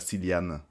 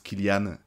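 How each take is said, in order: First: The name begins with a soft S sound. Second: The name begins with a hard K sound. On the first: The speaker calls it wrong. "et pas Cillian" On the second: The speaker calls it right. "on prononce Kilian"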